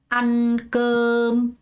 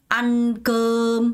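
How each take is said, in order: Both takes have the same delivery.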